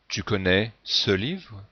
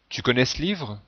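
First: Spoken carefully with the vowel in 'ce' pronounced. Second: Spoken quickly with the vowel in 'ce' dropped. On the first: The speaker calls it wrong. "Plutôt que tu connais ce livre qui est artificiel" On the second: The speaker calls it right. "Autre exemple"

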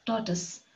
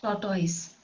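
First: The second syllable sounds like 'tus'. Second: The second syllable sounds like 'toys'. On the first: The speaker calls it right. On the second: The speaker calls it wrong.

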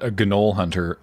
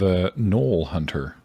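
First: The word starts with a hard g sound. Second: The word starts with an n sound. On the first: The speaker calls it wrong. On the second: The speaker calls it right.

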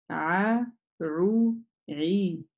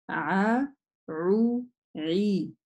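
The two takes are said the same way.

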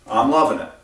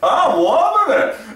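First: It is said in a casual, natural way. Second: It is said with a lot of energy.

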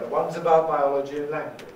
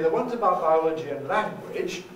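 First: The voice falls at the end. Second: The voice falls then rises at the end. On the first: "a fall is the basic tone we use to make a definitive statement" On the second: "That's a fall rise"

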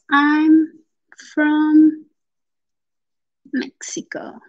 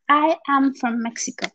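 First: I am is contracted into one syllable. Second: I am is said as two full words. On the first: "si queremos hacer la contracción" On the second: "aquí pronunciamos I am from Mexico"

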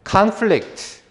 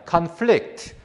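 First: The stress is on the first syllable. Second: The stress is on the second syllable. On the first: It is a noun meaning a struggle or clash. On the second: It is a verb meaning to clash.

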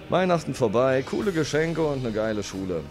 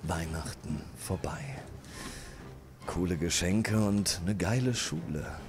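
First: It is read in a plain voice. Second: It is read in a put-on tenor voice.

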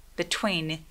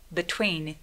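No difference in how they are said.

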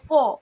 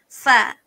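First: The vowel is rounded, like 'o'. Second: The vowel is open, like 'a'. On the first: The speaker calls it wrong. "Fasalla ini jangan terjangkit. Jangan fo" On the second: The speaker calls it right. "Sebutan dia fa"

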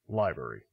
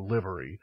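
First: The first vowel is long, as in 'live show'. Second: The first vowel is short, as in 'live it'. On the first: The speaker calls it wrong. "not as in live performance" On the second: The speaker calls it right. "is pronounced as in live it up"

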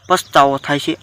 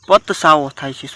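First: The s and t sounds are in normal order. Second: The s and t sounds are swapped around. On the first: The speaker calls it right. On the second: The speaker calls it wrong.

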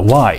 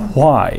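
First: It begins with a plain w sound. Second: It begins with a breathy hw sound. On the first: This is how Americans say it today. "今あのアメリカ人はWhy っていうじゃないですか" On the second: This is how it was said in older American English. "でも昔はWhy だったんですよ"

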